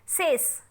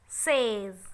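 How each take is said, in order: First: The word ends with a hissing s sound. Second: The word ends with a buzzing z sound. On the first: The speaker calls it wrong. "We will not say" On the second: The speaker calls it right. "you have to pronounce z"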